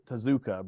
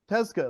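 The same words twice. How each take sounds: First: It is said with an American English pronunciation. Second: It is said with a Japanese pronunciation. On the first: The speaker calls it wrong. "that's just what us Americans say" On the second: The speaker calls it right. "that's what I'm going to call him"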